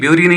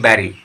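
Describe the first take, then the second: First: The first vowel sounds like 'you'. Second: The first vowel sounds like 'e' in 'bed'. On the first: The speaker calls it wrong. "ब्यूरी नहीं पढ़ना है" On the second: The speaker calls it right. "इसको आप पढ़ेंगे बैरी"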